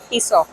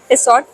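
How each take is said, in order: First: The word ends without a final t sound. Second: The word ends with a final t sound. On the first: The speaker calls it right. "This is टिसॉ" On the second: The speaker calls it wrong. "It's not टी टिसॉट, टी is silent"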